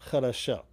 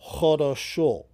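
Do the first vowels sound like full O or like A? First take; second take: like A; full O. First: The unstressed vowels sound short, almost like A. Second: The unstressed vowels are full, long O sounds.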